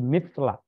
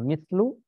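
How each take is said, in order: First: The word ends with an a vowel. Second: The word ends with an u vowel. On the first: The speaker calls it right. "tapi mithla karena itu maf'ul bih" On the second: The speaker calls it wrong. "Jangan dibaca mithlu"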